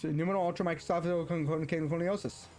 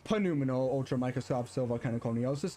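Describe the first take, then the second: First: The word begins with an N sound. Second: The word begins with a sounded P. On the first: The speaker calls it right. "No, it's" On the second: The speaker calls it wrong. "There is not panuminal"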